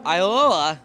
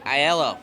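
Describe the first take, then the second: First: The name is said as Iola. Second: The name is said as Aiello. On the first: The speaker calls it wrong. "Am I saying that right?" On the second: The speaker calls it right. "There we go"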